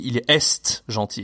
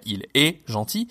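First: The final consonant of est is pronounced. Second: The final consonant of est is silent. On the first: The speaker calls it wrong. "ces étudiants, ils répétaient" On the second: The speaker calls it right. "les consonnes sont muettes à la fin, qu'il faut dire"

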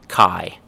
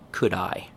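First: The phrase is squeezed into one reduced syllable. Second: The phrase is said as two clear full words. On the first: "Chewing gum at the beginning" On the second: "Full form"

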